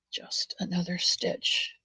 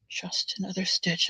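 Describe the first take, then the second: First: Soft slow whisper of the phrase. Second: Said in the usual way. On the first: Real, not acted. To herself while knitting, a slow whisper. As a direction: breathe it out, slow and hushed.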